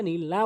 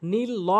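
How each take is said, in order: First: নীল লা with an open aa; correct pronunciation. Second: নীল ল with a rounded o; wrong pronunciation. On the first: Teacher recaps the rule, correct লা. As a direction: say নীল লা, opening the last vowel. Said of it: "বলতে হবে". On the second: Teacher recaps what not to say, wrong ল. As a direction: say নীল ল, rounding the last vowel. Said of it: "বলা যাবে না". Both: Shown as a demonstration.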